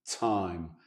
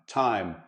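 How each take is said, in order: First: The T is soft and hissy, like an affricate. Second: The T is a crisp, full explosive sound. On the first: "sloppy T sound ... make it an affricate" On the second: "instead of"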